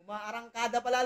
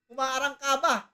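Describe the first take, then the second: First: "Umaarangkada" with a clear d, -da at the end; self-correction "Umaarangkada", ending in -da; corrected word. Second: "Umaarangkaba" said with a b in the last syllable, -ba; "Umaarangkaba", slurring the d into b, loud; tongue-tied take "Umaarangkaba" with -ba at the end; mispronounced word. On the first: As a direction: fix it to "Umaarangkada", d sounded properly. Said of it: "Nabubulol na ako". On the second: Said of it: "Mali, mali, boss". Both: Shown as a demonstration.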